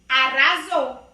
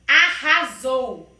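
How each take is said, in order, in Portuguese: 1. O r do meio é um toque suave. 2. O r do meio é um som forte. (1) "se não tiver dois R's, vira arrasou" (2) "é a palavra arrasou. O R tem que ter o som forte"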